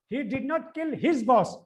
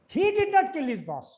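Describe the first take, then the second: First: The stress is on "his". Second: The stress is on "he".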